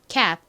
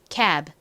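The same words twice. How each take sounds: First: It is said quickly with a clipped final b. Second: It is said slowly with a released final b. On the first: "빠르게 발음하면 마치 받침처럼 들리게 됩니다" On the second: "아주 천천히 발음하면"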